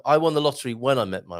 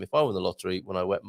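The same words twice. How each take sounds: First: "met" said cleanly with a firm m; corrected. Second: Says "wet" where "met" belongs, a clear w sound; tongue slip. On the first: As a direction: fix it and say "met" with a clear m. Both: Real, not acted. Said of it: "not when I wet my w".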